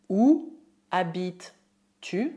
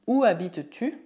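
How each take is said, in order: First: Slow, separated words. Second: Said in the usual way. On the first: Shown as a demonstration. Teacher models French for learners, slow word by word. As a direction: spell out the question with pauses between words.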